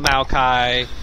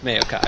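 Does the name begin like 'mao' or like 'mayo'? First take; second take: mao; mayo. First: The name begins with a 'mao' sound. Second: The name begins with a 'mayo' sound. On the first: The speaker calls it wrong. "I don't call it Maokai" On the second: The speaker calls it right. "like mayonnaise"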